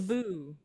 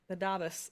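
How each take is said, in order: First: The final S is silent. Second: The final S is pronounced. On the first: The speaker calls it wrong. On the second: The speaker calls it right.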